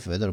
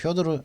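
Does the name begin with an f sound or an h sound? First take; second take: f sound; h sound. First: The name begins with an f-like sound. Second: The name begins with an h-like sound. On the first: The speaker calls it right. "이게 페도르죠" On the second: The speaker calls it wrong. "일본 사람들은 이거 갖다 효도르라고 발음을 하더라고요"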